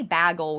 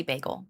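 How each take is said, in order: First: BAGEL said as BAG-ul; short A, as in bag, in BAGEL; imitated weird bagel. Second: Said in the usual way. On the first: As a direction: flatten BAGEL's first vowel to "bag". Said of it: "people say bagel weird". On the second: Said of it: "I say bagel".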